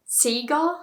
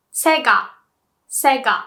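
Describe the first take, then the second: First: "Sega" with a long ee, "SEE-ga"; mispronunciation. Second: "Sega" with a short e, "SEH-gah"; correct pronunciation. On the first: Retold or imitated. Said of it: "I heard people say Sega". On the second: Shown as a demonstration. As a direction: say "Sega" firmly as Japanese "se-ga". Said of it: "but it's pronounced".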